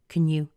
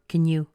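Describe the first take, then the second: First: 'You' keeps a full oo vowel. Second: The same.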